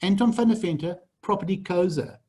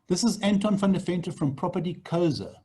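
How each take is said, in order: First: Name and company said slowly, each part clear; slow framing name. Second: Said in the usual way. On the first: Shown as a demonstration. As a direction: spell out Anton van der Venter, Property Koza deliberately. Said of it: "frames what you're saying". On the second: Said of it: "And you say".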